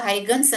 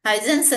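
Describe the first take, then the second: First: The middle consonant is a g sound. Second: The middle consonant is an s sound. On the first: "ಹೈಗನ್ಸ್ ಅಂತಾನು pronounce ಮಾಡ್ತಾರೆ" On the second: "ಹೈಸನ್ಸ್ ಅಂತಾನು pronounce ಮಾಡ್ತಾರೆ"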